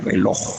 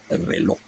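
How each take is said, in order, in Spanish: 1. La palabra termina en el sonido j final. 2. La palabra termina en la vocal o, acentuada. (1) "no le dejaba la J, no decía reloj" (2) "le quitaba la J y tildaba la O"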